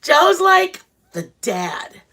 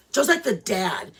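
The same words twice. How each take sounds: First: Joe's like the dad, very slow, higher and louder, leaning on like; stressed. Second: Said in the usual way. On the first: Shown as a demonstration. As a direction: draw out Joe's like the dad for emphasis.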